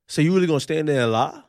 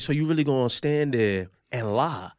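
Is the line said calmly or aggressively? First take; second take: aggressively; calmly. First: The line is said in an aggressive, confrontational tone. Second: The line is said in a calm, plain tone.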